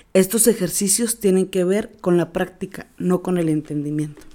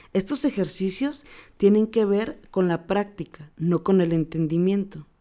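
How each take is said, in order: Both takes have the same delivery.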